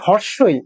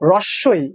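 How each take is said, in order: First: The name starts with an open 'hor' sound. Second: The name starts with a clustered 'hro' sound. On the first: This is how many other people say it. "অনেকে বলে হর্ষই" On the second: This is the name as the speaker says it. "আমরা বলি রস্বই"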